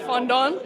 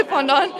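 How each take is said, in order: First: Fondant in a French accent. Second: Said in the usual way. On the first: Shown as a demonstration. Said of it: "saying that in a French accent". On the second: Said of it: "I feel weird saying that in a French accent".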